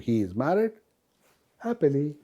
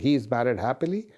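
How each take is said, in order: First: There is a pause before the word happily. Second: It is said straight through without a pause. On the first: "He is married, comma, pause, happily" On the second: "changes the meaning from saying"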